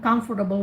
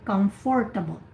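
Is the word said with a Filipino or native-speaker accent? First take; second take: native; Filipino. First: It is said in a native English accent. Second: It is said in a Filipino English accent.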